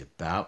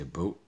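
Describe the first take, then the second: First: It is said with an American vowel sound. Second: It is said with a Canadian vowel sound. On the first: "in Canada, we wouldn't say about" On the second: "we'd say about"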